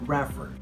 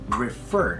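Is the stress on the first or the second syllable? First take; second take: first; second. First: The stress falls on the first syllable. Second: The stress falls on the second syllable. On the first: The speaker calls it wrong. "not refer" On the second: The speaker calls it right. "Again, refer"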